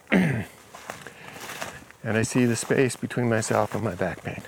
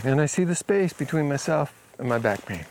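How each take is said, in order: First: Each word stretched slowly, fading at the end; slow, drawn out. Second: Said in the usual way. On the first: Retold or imitated. Client repeating the phrase slowly for the healer, slow and fading.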